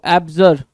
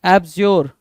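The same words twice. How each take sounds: First: एब्जर with a short neutral vowel, "AB-jer"; short -jer ending. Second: एब्ज्योर with a rounded o, "AB-zyor"; rounded -jor ending. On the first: Teacher shows students one reading, एब्जर with short -jer. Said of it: "कुछ लोग एब्जर पढ़ते हैं". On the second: Teacher shows students the other reading, एब्ज्योर with rounded -yor. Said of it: "कुछ लोग एब्ज्योर पढ़ते हैं". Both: Shown as a demonstration.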